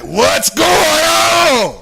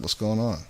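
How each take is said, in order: First: It is said loudly, almost shouted. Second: It is said quietly, in a calm voice.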